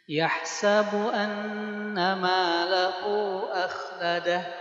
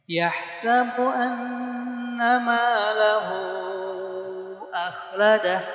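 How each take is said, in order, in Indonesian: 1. Vokal pada lahu ditahan dua harakat. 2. Vokal pada lahu ditahan empat harakat. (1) "Boleh gak bacanya dua harokat? Mangga" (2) "Boleh empat? Boleh"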